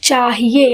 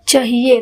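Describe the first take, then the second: First: The first vowel is a long, open aa. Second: The first vowel is a short a. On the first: "मैंने थोड़ा मुंह बड़ा किया, मतलब आ का उच्चारण किया" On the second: "मैंने छोटा अ बोला"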